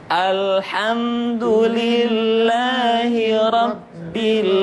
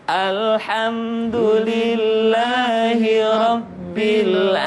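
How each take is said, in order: No difference in how they are said.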